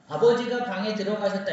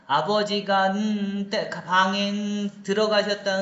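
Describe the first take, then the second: First: The sentence flows without any filler sounds. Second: Filler sounds fill the gaps between phrases. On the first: "이러면 얘가 알아듣는데" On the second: "중간중간에 필러를 넣어서"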